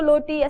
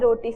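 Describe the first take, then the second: First: The word begins with an l sound. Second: The word begins with an r sound. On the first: A small child is saying it. The speaker calls it wrong. "रोटी को लोटी ऐसे बोलते हैं" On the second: Someone who can pronounce it correctly is saying it. The speaker calls it right. "वो ठीक बोल सकता है"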